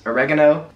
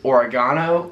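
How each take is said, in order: First: It uses the American pronunciation of the word. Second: It uses the non-American pronunciation of the word.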